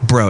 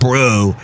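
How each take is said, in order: First: The word is said short and clipped. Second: The word is said long and drawn out. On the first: "it's a quick bro" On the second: "It's not bro"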